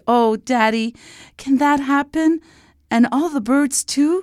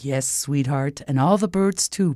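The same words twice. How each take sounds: First: Put-on high, delighted child's voice; high-pitched hopeful child; beaming little princess. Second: Lightly voiced reassuring king; a hint of a kindly royal dad; promising father. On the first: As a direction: ask hopefully like a thrilled little girl. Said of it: "Liana beamed". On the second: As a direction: promise it calmly to your child. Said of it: "promised the king". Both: A narrator's reading.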